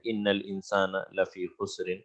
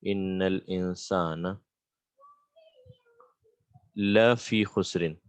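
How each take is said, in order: First: Said in the usual way. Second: Slow, deliberate, with a long pause before "la fi khusrin"; slow verse repetition. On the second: Shown as a demonstration. Teacher breaking down a verse for students, slowly. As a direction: draw out "Innal insana", pause, then "la fi khusrin".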